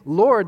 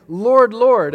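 First: Said in the usual way. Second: "Lord, Lord" repeated, higher and much louder; doubled Lord. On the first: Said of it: "not just saying, "Lord". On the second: Shown as a demonstration. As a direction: double the "Lord, Lord" with a loud cry. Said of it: "they're saying, "Lord, Lord".

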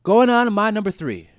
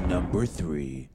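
First: Higher and louder, hyped up; loud hype announcement. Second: Drawn out slow, building suspense; slow dramatic announcement. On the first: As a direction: call it out like a show host. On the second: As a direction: tease it slowly like a countdown reveal. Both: Acted. Announcing the next ranking.

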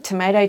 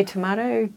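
First: "tomato" as "to-MAY-to"; American-style pronunciation. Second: "tomato" as "to-MAH-to"; British-style pronunciation. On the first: Guest compares variant pronunciations for host, the "ay" version. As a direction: say "tomato" with an "ay" middle vowel. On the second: Guest compares variant pronunciations for host, the "ah" version. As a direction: say "tomato" with a long "ah" middle vowel. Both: Shown as a demonstration. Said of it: "yeah, different. It's like tomato".

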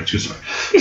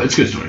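First: Breathed out as a whisper; a teasing whispered aside. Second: Said in the usual way. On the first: Shown as a demonstration. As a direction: drop to a secret whisper. Repeats the aside under his breath.

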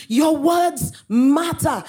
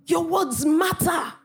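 First: "words" stretched very slow, shouted; stress on words. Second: "words" drawn out, higher and slow; preacher punches "words" in the refrain; stress on words. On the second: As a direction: lean hard on "words" in "Your words matter". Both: Real, not acted. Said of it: "preacher stresses refrain".

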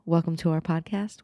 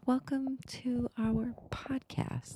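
First: Said in the usual way. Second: Breathy whispered welcome; whispering. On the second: Pretend. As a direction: whisper it like a secret. Greeting repeated as whisper.

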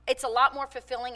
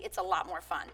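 First: Said in the usual way. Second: A hushed, cheeky aside to the audience; conspiratorial whisper. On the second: Real, not acted. Speaker confides to the crowd, whispered and playful. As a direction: whisper it like a naughty secret.

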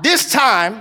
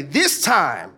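First: Loud call. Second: Said in the usual way. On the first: Shown as a demonstration. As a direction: lead the congregation loudly. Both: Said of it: "I want us to say it loud".

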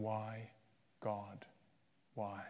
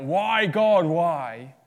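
First: Soft, quiet, falling why; hushed echo of a shout. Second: Loud, high cry of why to God; anguished cry. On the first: Jesus on the cross, echoed quietly and softly. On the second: A sufferer crying out to God, loud and high. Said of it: "when you cry out". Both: Retold or imitated.

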